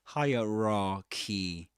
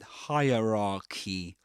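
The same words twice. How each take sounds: Both takes have the same delivery.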